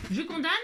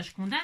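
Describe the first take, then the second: First: Higher, punchy declaration; playful decisive call. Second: Said in the usual way. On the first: Shown as a demonstration. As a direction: announce it with cheeky triumph. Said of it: "Allez, hop". (je condamne, lancé plus haut avec entrain) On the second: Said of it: "Si j'ai envie de condamner ça".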